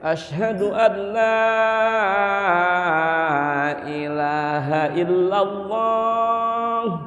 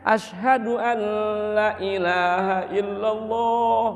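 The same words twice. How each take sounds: First: The long vowels are held to full length. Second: The long vowels are cut short and clipped. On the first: Each letter gets its proper length. The speaker calls it right. "Kan nyaman" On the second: Letters are cheated of their due length. The speaker calls it wrong. "jangan sampai korupsi huruf. Gak enak"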